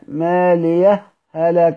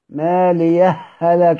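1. سكتة خفيفة صامتة تفصل بين الكلمتين. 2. الكلمتان متصلتان دون أي فاصل. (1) "هيسكت هناك" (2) "الإدغام"

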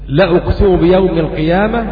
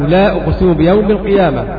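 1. الحركة بعد اللام قصيرة. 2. الحركة بعد اللام طويلة. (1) "حذف الألف" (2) "إثبات الألف بعد اللام"

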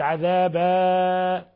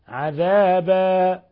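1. الحركة الأخيرة تُمدّ مدّا طويلا جدا. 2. الحركة الأخيرة تُمدّ مدّا متوسطا. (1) "فتكون مديت فوق ثلاث حركات" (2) "وإنما حركتين"

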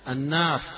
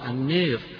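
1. الحركة الطويلة مفتوحة تماماً، مثل 'aa'. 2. الحركة الطويلة مُمالة بشدة نحو 'ee'. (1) "قراءها مفتوحة" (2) "قرأها البعض بالإمالة"

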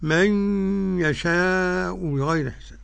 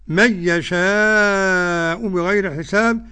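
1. تُدغم النون في الياء مع الغنة. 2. تُدغم النون في الياء دون غنة. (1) "والمقوم بالغنى" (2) "عدم الغنى لخلف عن حمزة"

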